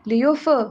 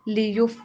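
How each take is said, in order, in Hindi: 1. f की ध्वनि पर आवाज़ हिलती है। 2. f की ध्वनि पर आवाज़ स्थिर रहती है। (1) "ये वाली आवाज नहीं" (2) "फ के ऊपर आवाज को हिलाना नहीं है"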